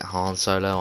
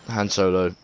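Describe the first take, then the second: First: Han said like 'Hahn', open American a; mock the American way of saying Han; American pronunciation. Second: Han said with a short a, as in 'hand'; English pronunciation. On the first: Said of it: "you fucking American viewers". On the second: Shown as a demonstration. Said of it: "That's how we pronounce it in England".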